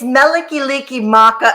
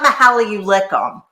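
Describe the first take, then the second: First: The title sounds like 'Meliki liki maka'. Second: The title sounds like 'Mahala you lick 'em'. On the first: The speaker calls it right. "It's Meliki Liki Maka" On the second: The speaker calls it wrong. "It's not Mahala You Lick 'em"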